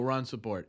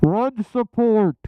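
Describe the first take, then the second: First: It is said at a quieter, ordinary volume. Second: It is said noticeably louder, with more force.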